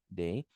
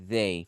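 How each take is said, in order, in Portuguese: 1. A palavra começa com som de d. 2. A palavra começa com som de th sonoro. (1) "se você falar day, eles vão até te entender" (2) "vibrando ... fica mais padrão a sua pronúncia"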